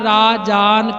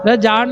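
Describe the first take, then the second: First: The first vowel is long. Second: The first vowel is short. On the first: The speaker calls it right. "ਇਹਦਾ ਸਹੀ ਉਚਾਰਨ ਰਾਜਾਨ ਕਰਨਾ ਹੈ" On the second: The speaker calls it wrong. "ਰਜਾਨ ਨਹੀਂ ਉਚਾਰਨ"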